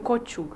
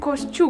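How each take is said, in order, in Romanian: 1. Nu există un sunet 'sh' înainte de sunetul 'ch'. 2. Sunetul 'sh' vine înainte de sunetul 'ch'. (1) "nu cociug" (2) "se zice coșciug"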